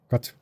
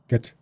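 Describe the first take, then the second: First: It is said with a Korean pronunciation. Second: It is said with an American pronunciation. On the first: "우리는 가트라고 있는데" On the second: "미국은 게트라고 있겠죠"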